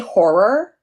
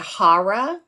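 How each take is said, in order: First: Horror is said without an East Coast accent. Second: Horror is said with an East Coast accent. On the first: "I say horror" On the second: "most people say horror because I'm on the East Coast"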